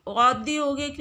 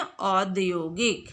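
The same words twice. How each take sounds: First: औद्योगिक begun with a closed "o"; wrong pronunciation. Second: औद्योगिक slowly, with open "au"; correct pronunciation. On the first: Teacher showing pupils the mistake, औद्योगिक with "o". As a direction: say औद्योगिक as "odyogik". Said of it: "औद्योगिक नहीं बोलते". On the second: Teacher giving pupils the right form, औद्योगिक slow with open "au". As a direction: stretch औद्योगिक out as "aud-yogik". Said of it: "बल्कि क्या बोलते हैं". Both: Shown as a demonstration.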